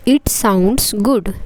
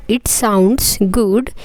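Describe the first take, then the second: No difference in how they are said.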